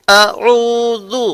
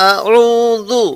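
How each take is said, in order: No difference in how they are said.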